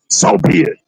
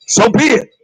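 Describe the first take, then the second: First: "So be it" whispered, barely voiced. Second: Said in the usual way. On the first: Shown as a demonstration. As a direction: breathe "So be it" out with no voice. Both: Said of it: "Did you hear any humbleness".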